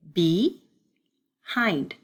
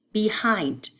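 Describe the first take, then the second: First: "behind" drawn out in separate chunks; syllable chunking. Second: Said in the usual way. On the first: Shown as a demonstration. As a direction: sound out "behind" slowly, part by part. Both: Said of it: "We have B".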